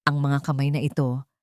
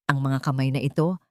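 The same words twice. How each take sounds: The two takes are said the same way.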